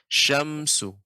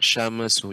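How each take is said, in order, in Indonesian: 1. Bunyi m ditahan tetap tanpa memantul. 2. Bunyi m memantul dengan lepasan. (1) "Yang benar" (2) "ini yang kurang tepat"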